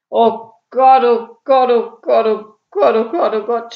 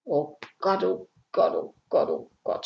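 First: Loud, higher chant of dismay; despairing groan. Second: Subdued, despairing moan; groaning. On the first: Burglar learns he is the third, loudly groaning. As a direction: moan it heavily, pounding each repeat. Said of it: "stöhnte Ede noch matter". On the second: Burglar realises the house is empty, quietly groaning. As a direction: moan it under the breath, repeatedly. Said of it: "stöhnte Ede". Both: A narrator's reading.

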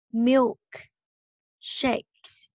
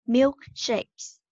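First: Milk, clear pause, Shakes; slow, split syllables. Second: Milkshakes joined up as one word; quicker, connected teaching model of Milkshakes; a bit faster. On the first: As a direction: sound out Milk and Shakes one at a time. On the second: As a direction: run Milkshakes together without a pause. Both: Shown as a demonstration. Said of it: "mình đọc nhanh hơn một chút nha".

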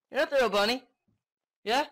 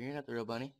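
First: Loud, high-pitched accusation; shouted taunt, pitched way up; escalated accusation. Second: Lower, softer muttered accusation; quiet taunt to a game creature; low-key accusation. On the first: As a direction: yell it at the creature, voice jumping up. Repeated taunt, escalated take. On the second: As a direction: say it low and under control. Repeated taunt, first low take. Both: Pretend.

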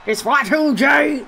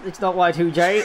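First: Slow, shouted wrestling call; mock commentator shout; commentator catchphrase. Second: Said in the usual way. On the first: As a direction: bellow it like a hyped ring announcer. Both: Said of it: "what else do the good commentators".

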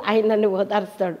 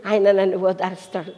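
No difference in how they are said.

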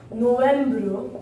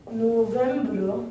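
First: Said in the usual way. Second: "November" slowly, first syllable held; slow teaching take of "November", French ending; drawn out. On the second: Shown as a demonstration. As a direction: stretch "November" into "no-vembre". Teacher stretches the word for learners.

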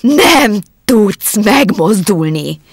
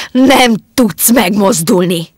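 First: Very slow, loud, hypnotic "Nem tudsz megmozdulni!"; a wife repeating her order, slower and more insistent; repeated command, even slower. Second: Slow, loud hypnotic command with "Nem" pressed; loud slow order to stay still. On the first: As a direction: stretch every syllable, willing him frozen. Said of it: "ismételte Alex". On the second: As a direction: drive each word in like a spell. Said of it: "Pillantása parancsolóan". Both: Acted.

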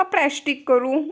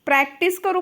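First: प्रॅस्टिक with "sht" mid-word and k at the end; imitating child's mispronunciation. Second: Said in the usual way. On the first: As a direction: teasingly echo a child's प्रॅस्टिक. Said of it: "प्रॅक्टिस करू का". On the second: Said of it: "का प्रॅस्टिक करू".

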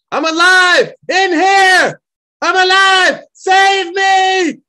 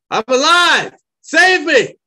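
First: Even louder, higher full-out shout; trapped man shouting to rescuers, full force. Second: High, loud cry for rescue; desperate shout for help, much higher and louder; hoarse shout. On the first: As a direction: scream it so rescuers hear you. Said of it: "able to shout louder". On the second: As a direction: yell out from under the rubble. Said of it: "a hoarse shout". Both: Acted.

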